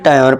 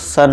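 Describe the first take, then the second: First: The letters are read as 'tayar'. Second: The letters are read as 'shun'. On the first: The speaker calls it wrong. "या फिर टायर पढ़ जाते हैं" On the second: The speaker calls it right. "इसका correct pronunciation क्या होता है दोस्तों, सन होता है"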